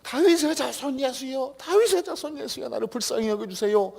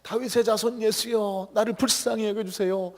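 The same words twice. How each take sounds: First: Much higher, slowed, desperate repeated plea; crying out ever louder. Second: Pleading cry, higher and slowed; crying out to Jesus. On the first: Blind beggar crying until Jesus looks at him, desperate cry. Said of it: "더 크게". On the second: Blind beggar calling out to Jesus, pleading cry. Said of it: "예수님을 소리쳐 불렀습니다". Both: Retold or imitated.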